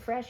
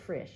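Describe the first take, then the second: First: The vowel sounds like the one in 'bed'. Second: The vowel sounds like the one in 'bid'. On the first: "Is it fresh or frish?" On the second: "Is it fresh or frish?"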